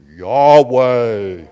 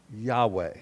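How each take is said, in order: First: Loud, drawn-out God voice. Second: Said in the usual way. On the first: Shown as a demonstration. Pastor shows congregation how to say God's name, in a loud God voice. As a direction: boom it out like God. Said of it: "in your God voice". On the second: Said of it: "Say Yahweh".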